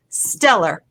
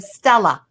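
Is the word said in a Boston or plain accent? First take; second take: plain; Boston. First: It is said in a plain, non-Boston accent. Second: It is said in a Boston accent, final r dropped.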